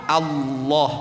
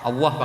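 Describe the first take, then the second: First: The L sound is said clearly and fully. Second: It is said mainly with the lips. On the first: This is how it is said when reciting scripture. "harus jelas itu lam" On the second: This is how it is said in everyday speech. "dalam sehari-hari kita menyebut ... Allah pakai bibir"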